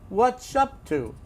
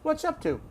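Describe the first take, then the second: First: The phrase is said slowly and deliberately. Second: The phrase is said at normal conversational speed. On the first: "I'll even do it slowly" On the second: "I'll pronounce it"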